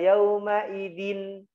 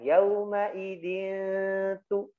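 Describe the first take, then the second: First: The n sound is pronounced fully and clearly. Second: The n sound is nasalized and only faintly heard. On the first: The speaker calls it wrong. "tidak yauma idin, jelas" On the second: The speaker calls it right. "nunnya tidak dijelaskan, disamarkan"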